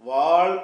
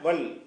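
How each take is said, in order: First: The vowel is drawn out long. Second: The vowel is cut short. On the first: The speaker calls it wrong. "வால் என்று படிக்காமல்" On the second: The speaker calls it right. "வல் அப்படி தான் படிக்கணும்"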